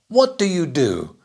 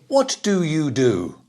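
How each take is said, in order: First: Only what and the last do are stressed. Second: The middle words do you are stressed too. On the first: The speaker calls it right. "The stress on the first question word ... the auxiliary words are very quiet" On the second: The speaker calls it wrong. "We don't say"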